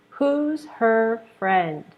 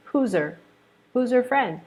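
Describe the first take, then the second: First: Said in the usual way. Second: "Who's her" with the h dropped, said as whozer; reduced who's her. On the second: Shown as a demonstration. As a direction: blend "Who's her" together.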